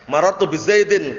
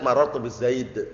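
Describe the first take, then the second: First: The last word ends with a full -in ending. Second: The last word stops on the consonant d. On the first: The speaker calls it wrong. "keliru kalau antum waqaf" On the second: The speaker calls it right. "bacanya marartu bi zaid"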